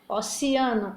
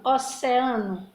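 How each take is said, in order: First: "Oceano" as "osiano"; other pronunciation. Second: "oceano" as "oseano", slow; one pronunciation. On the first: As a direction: say "Oceano" with an i sound. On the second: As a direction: say "oceano" with an open e. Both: Shown as a demonstration. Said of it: "A palavra oceano".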